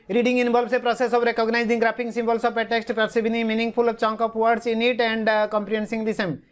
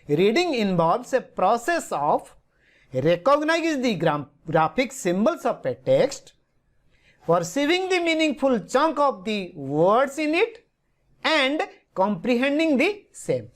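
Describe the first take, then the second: First: It is read in one run without chunks. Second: It is read in chunks with pauses between.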